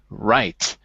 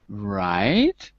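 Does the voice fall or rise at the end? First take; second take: fall; rise. First: The pitch falls at the end of the word. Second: The pitch rises at the end of the word. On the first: The conversation is finished. "the conversation's over" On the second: The listener wants to hear more. "my voice indicates that I want to hear more"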